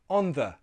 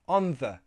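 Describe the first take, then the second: First: The th is a soft breathy sound. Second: The th is a soft breathy sound.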